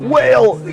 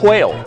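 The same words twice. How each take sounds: First: It starts with a plain w sound. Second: It starts with a breathy h before w.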